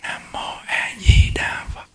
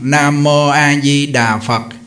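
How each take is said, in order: First: The phrase is barely voiced, only moving the lips. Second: The phrase is said aloud in a loud voice. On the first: "niệm thầm nhép môi kim cang trì" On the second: "lớn tiếng nè, Nam Mô A Di Đà Phật ra tiếng"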